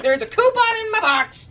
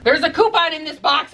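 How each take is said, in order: First: Much higher excited announcement; excited higher repeat of there's a coupon. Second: Said in the usual way. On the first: Pretend. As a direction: squeal out the news of the coupon. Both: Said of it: "I repeat".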